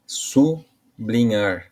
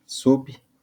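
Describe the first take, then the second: First: SUBLINHAR said slowly as su... blinhar, with a break after su; split as su-blinhar. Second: SUBLINHAR syllable by syllable, sub... li... nhar, with long pauses; split as sub-li-nhar. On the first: Teacher showing students the word's sound, split su-blinhar. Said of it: "Seria a palavra". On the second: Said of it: "Mas aí o sub fica". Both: Shown as a demonstration.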